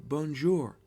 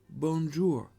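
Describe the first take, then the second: Both takes have the same delivery.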